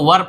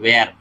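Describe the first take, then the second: First: The vowel sounds like the one in 'fur'. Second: The vowel sounds like the one in 'air'. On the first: The speaker calls it right. "इसको वर पढ़ते हैं" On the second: The speaker calls it wrong. "ना कि वेयर"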